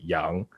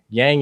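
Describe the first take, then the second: First: The name is said with a softer, native vowel. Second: The name is said with a heavy, anglicized vowel. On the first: The speaker calls it right. "in reality it's more pronounced like Young" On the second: The speaker calls it wrong. "so kind of heavy and harsh as, like, an anglicized version of the last name"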